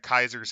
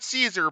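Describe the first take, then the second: First: The name begins with a hard K sound. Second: The name begins with a soft S sound. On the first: This is how the ancient Romans said it. The speaker calls it right. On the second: This is the familiar modern way of saying it. The speaker calls it wrong.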